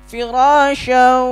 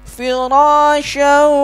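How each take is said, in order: Both takes have the same delivery.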